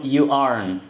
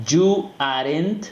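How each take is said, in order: First: "aren't" as one syllable "arn", falling; "you aren't" with silent E and T; correct pronunciation. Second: "aren't" in two syllables, "ah-RENT", rising; slow "you aren't" with sounded E and T, higher; wrong pronunciation. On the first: Teacher giving learners the new way, reduced "aren't". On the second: Teacher mimicking learners' old habit, two-syllable "aren't". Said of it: "Ya no vas a decir". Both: Shown as a demonstration.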